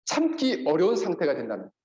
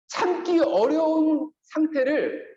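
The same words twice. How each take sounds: First: Said in the usual way. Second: 참기 어려운 상태를 drawn out slowly and pitched higher; slow stressed phrase. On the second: Shown as a demonstration. Pastor slows to underline 참기 어려운 상태를 for the congregation. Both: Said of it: "근데 잘 보세요".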